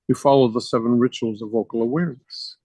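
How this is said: It is said slowly and deliberately, with full resonance. The words are meant earnestly. The speaker calls it right. "What I said was ... There's a different level of listening going on"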